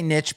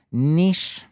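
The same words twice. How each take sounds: First: Niche said like "nitch", rhymes with pitch. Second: Niche said the French way, "neesh". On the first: A podcaster owning her US pronunciation of niche, says nitch. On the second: A podcaster showing the French-style niche she avoids, says neesh. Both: Shown as a demonstration. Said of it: "I don't say niche".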